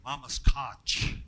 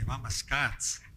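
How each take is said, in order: First: The word ends with a ch sound. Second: The word ends with a ts sound. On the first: The speaker calls it wrong. "we don't say mama scotch" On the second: The speaker calls it right. "We would say mama scots"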